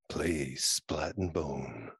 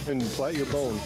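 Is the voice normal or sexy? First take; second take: sexy; normal. First: It is said in a put-on sexy voice. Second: It is said in a normal voice.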